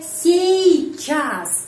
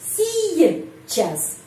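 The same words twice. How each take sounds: First: The first vowel sounds like a full e. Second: The first vowel sounds like a reduced i. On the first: The speaker calls it wrong. "Bukan, tidak boleh сейчас" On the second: The speaker calls it right. "huruf Y ini dibaca I"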